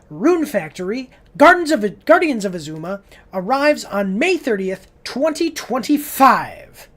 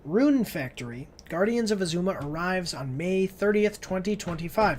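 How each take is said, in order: First: It is read in an excited, exclaiming way. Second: It is read in a flat, plain way.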